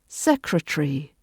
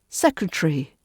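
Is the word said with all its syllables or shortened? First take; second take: shortened; shortened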